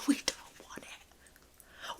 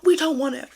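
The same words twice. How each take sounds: First: Very slow near-silent whisper. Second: Said in the usual way. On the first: Real, not acted. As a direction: barely breathe the words out. Repeats the line, then says it plainly.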